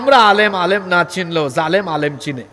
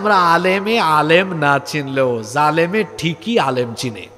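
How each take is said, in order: First: The sentence is spoken quickly. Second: The sentence is spoken slowly. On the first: The speaker calls it wrong. "একটু দ্রুত বলে ফেলছি তো" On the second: The speaker calls it right. "একটু আস্তে করে বলি"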